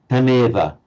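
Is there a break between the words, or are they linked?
linked. The two words run together without any gap. The speaker calls it right. "it would run on"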